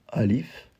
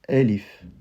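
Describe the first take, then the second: First: The first vowel is an open A. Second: The first vowel sounds like E. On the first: The speaker calls it wrong. "on va pas dire alif" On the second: The speaker calls it right. "je ne disais pas alif, mais bien elif"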